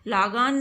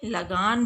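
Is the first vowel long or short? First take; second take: long; short. First: The first vowel is a long aa. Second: The first vowel is a short a. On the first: The speaker calls it wrong. "लागान को लागान नहीं" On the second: The speaker calls it right. "बल्कि लगान बोलते हैं"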